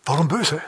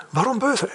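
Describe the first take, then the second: First: Said in the usual way. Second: "böse" lifted much higher, a baffled query; puzzled high question. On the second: Shown as a demonstration. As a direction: ask "Warum böse?" with a high wondering lift on böse. („böse“ deutlich höher, verwundert gefragt)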